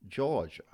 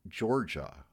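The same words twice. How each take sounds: First: Georgia with the R dropped, higher pitch, Jaw-ja; R-less South Georgia. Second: Georgia with a strong, hard R sound. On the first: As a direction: drop the R in Georgia like South Georgia speakers. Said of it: "people in South Georgia say". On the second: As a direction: say Georgia with the R clearly rolled in. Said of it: "with a hard R". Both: Shown as a demonstration.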